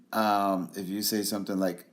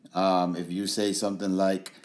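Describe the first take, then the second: No difference in how they are said.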